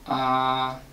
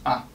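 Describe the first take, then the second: First: The pitch stays level and steady throughout. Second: The syllable is short, light and lazy. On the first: "you keep the pitch, and you don't change it" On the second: "lazy, short"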